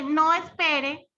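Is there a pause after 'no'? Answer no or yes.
no. There is no pause after the word no. The listener is told not to wait. "pues ¿qué hace uno? Pues se va"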